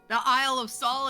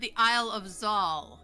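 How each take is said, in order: First: The place name begins with an S sound. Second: The place name begins with a Z sound. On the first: The speaker calls it wrong. "Just don't say my name" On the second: The speaker calls it right. "Either say Zal"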